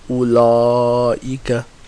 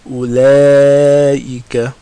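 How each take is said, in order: First: The L is heavy, with the tongue back raised. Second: The L is light, with the tongue back lowered. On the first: The speaker calls it wrong. "So we don't say ulaika, right? We don't make the lam heavy" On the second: The speaker calls it right. "We say ula, ulaika"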